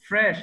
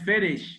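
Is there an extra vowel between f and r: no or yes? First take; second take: no; yes. First: The f and r are joined without a vowel. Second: An extra vowel separates the f and r. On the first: The speaker calls it right. "ফ্রেশ not ফেরিশ" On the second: The speaker calls it wrong. "Not ফেরিশ"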